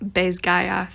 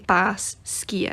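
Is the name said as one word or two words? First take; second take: one word; two words. First: The name is run together as one word. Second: The name is split into two separate words. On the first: The speaker calls it wrong. "the way she pronounces Bezgaya" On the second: The speaker calls it right. "if you were pronouncing it like a Gaelic speaker, you would say Bas Skia. It's actually two words"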